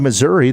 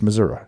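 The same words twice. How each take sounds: First: It is pronounced the way outsiders say it. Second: It is pronounced the way locals say it. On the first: The speaker is not from the state. "that's how we outsiders call it" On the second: The speaker is from the state. "If you're from Missouri, ... it's Missouri"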